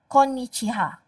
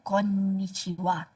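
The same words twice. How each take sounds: First: The last syllable is said as 'ha'. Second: The last syllable is said as 'wa'. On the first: The speaker calls it wrong. "Why not" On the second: The speaker calls it right. "Why we pronounce wa even though the character is ha?"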